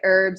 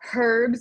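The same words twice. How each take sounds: First: The word starts without an h sound. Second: The word starts with an h sound. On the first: This is the American way of saying it. "I don't pronounce the H in herbs" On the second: This is the British way of saying it. "if we have any Brits watching"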